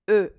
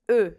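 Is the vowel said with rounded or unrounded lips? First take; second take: rounded; rounded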